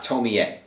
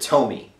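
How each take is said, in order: First: The name is said in its original way. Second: The name is said in an anglicized way. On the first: This is the actual name. The speaker calls it right. "It's really Tomie" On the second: The speaker guessed the name from reading it. The speaker calls it wrong. "I pronounce it Tomi"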